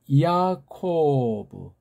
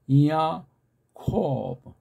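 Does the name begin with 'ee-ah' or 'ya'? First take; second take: ya; ee-ah. First: The name begins with one syllable, ya. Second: The name begins with two syllables, ee-ah. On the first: The speaker calls it wrong. "이 야코브가 아니에요" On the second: The speaker calls it right. "헬라 사람은 이아코브 그렇게밖에 안 돼요"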